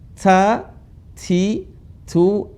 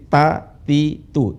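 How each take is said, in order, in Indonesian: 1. Bunyi t memiliki desis. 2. Bunyi t tidak memiliki desis. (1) "Ada desis" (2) "Kalau kita huruf T enggak ada desis"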